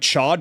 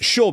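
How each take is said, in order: First: The name rhymes with 'bad', ending in a d. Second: The name sounds like 'show', with no final d. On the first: The speaker calls it wrong. "I've been calling him Chad because that's what all my friends were calling him" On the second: The speaker calls it right. "But that name is pronounced chaud because that's the French word for hot"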